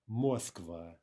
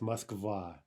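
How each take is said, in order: First: The stress is on the first syllable. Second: The stress is on the second syllable. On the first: The speaker calls it wrong. "The incorrect version would be Moskva" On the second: The speaker calls it right. "It's on the second syllable"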